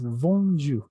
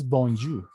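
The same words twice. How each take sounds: First: Bonjour drawn out slowly with nasal "on"; French nasal O. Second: Bonjour with a plain Spanish O; non-French O. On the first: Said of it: "hemos dicho, la O francesa". (bonjour lento con la O francesa) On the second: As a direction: say bonjour without the nasal French "on". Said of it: "No es bonjour". (bonjour sin la O francesa) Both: Shown as a demonstration.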